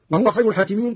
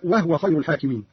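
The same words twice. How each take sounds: First: Said in the usual way. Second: وهو in two syllables, "wah-wa"; vowelless ha. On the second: Shown as a demonstration. Teacher repeats the rule, وهو with a vowelless h. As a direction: say وهو as "wahwa", not "wahuwa". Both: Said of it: "كذلك بإسكان الهاء".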